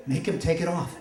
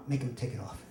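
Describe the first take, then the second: First: Acted urgent plea at normal volume; insistent plea. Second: Low, much softer mortified plea; hushed plea. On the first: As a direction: press the plea on mom more firmly. Embarrassed son repeats plea more insistently. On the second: Retold or imitated. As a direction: beg mom under your breath, acting it out. Embarrassed son pleads to mom.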